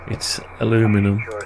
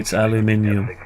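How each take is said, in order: First: It is said with an American pronunciation. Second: It is said with a British pronunciation. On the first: "If you're in America, it's aluminum" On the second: "If you're in the U K, it's aluminium"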